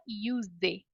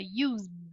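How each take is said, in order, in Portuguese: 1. A palavra termina com um som de vogal extra. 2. A palavra termina com um som de z sonoro. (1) "A gente não fala use" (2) "A gente fala use"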